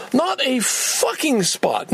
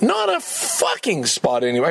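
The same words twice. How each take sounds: First: Slow, high, stretched-out frustration; exasperated. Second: Said in the usual way. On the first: Real, not acted. Complaining to the camera about parking, exasperated. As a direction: lean hard on not, disbelieving.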